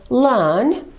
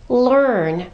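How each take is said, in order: First: It is said with a silent R, British style. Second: It is said with a pronounced R, American style. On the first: "British speakers would say learn" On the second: "Americans say learn"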